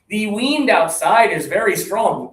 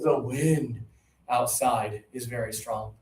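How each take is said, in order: First: The vowel in 'wind' is a long 'ee'. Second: The vowel in 'wind' is a short 'i'. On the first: The speaker calls it wrong. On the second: The speaker calls it right.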